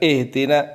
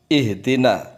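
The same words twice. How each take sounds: First: The h is light and weakly breathed. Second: The h is deep and strongly breathed from the throat. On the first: The speaker calls it wrong. "Jangan ihdina, ihdina kurang" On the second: The speaker calls it right. "Ha itu di dada"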